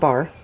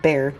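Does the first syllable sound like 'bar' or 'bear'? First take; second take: bar; bear. First: The vowel sounds like the word bar. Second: The vowel sounds like the word bear. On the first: The speaker calls it wrong. "not bar" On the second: The speaker calls it right. "That's how you say it, right? Bear"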